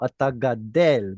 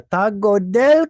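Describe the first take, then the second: First: The verb's first vowel is a. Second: The verb's first vowel is o. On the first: This is the standard form. The speaker calls it right. "No, no, ata gadel" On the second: This is the common everyday form. The speaker calls it wrong. "most Israelis would say"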